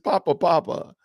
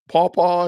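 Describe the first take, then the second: First: Each word is said fully as 'papa'. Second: Each word is said like a clipped 'paw'. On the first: The speaker calls it right. "It's it's Papa Papa" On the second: The speaker calls it wrong. "what was Atkins saying? Paw paw or something? It just sounded weird"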